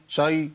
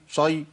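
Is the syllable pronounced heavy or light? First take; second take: Heavy; Heavy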